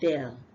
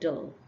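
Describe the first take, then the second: First: The vowel is a full A sound. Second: The vowel is a relaxed schwa sound. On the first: The speaker calls it wrong. "It's not del. It's not a" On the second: The speaker calls it right. "when you say del, then you are pronouncing the schwa sound"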